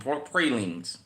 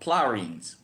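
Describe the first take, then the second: First: It is said the way visitors pronounce it. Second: It is said the way locals pronounce it. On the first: The speaker is not from New Orleans. "Out of towners call them pralines" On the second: The speaker is from New Orleans. "In New Orleans, we call them plarines"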